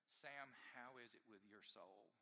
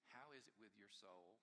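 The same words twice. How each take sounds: First: Soft, slow and searching; a quiet pastoral question to himself; gentle question. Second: Quiet question. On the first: Retold or imitated. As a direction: ask it gently, slowly. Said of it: "asking this question". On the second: Shown as a demonstration. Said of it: "the question that was asked".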